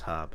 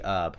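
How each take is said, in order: First: The word starts with an h sound. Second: The word starts without an h sound. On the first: It is said the speaker's own way. "inside I'm going, it's herb" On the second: It is said the listener's way. "say consciously herb for you"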